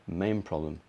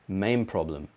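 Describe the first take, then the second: First: The word 'main' ends with an M sound. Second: The same.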